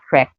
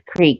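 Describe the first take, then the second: First: The word has a short i vowel. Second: The word has a long ee vowel. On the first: The speaker calls it wrong. "not crick. Crick would be spelled C R I C K" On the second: The speaker calls it right. "it is creek"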